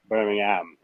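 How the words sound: The h is dropped from the last syllable. This is the local, proper way of saying it. The speaker calls it right. "Take the H out and put an apostrophe. Yes, so I can be proper"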